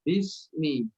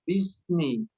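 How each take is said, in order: First: The s sound is pressed firmly and clearly. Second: The s sound is weak and indistinct. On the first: The speaker calls it right. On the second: The speaker calls it wrong.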